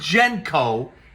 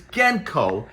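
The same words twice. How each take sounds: First: The first syllable differs from 'Gens' in Gensburg. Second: The first syllable matches 'Gens' in Gensburg. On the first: The speaker calls it wrong. "It is not Genko" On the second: The speaker calls it right. "it is Genko, as in the Gensburg brothers"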